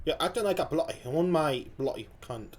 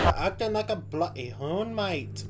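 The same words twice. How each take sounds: First: Tentative Australian accent. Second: Slow, drawn-out attempt at Australian; botched Australian accent. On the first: Reactor retries the comedian's line, tentative Australian accent. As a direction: try Australian, unsure of it. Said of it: "Something like that, maybe?". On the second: Reactor copies the comedian's line, badly botched Australian accent. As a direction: have a rough go at an Aussie accent. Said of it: "that was fucked". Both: Shown as a demonstration.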